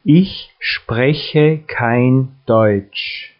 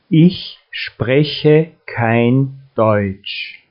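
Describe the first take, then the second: No difference in how they are said.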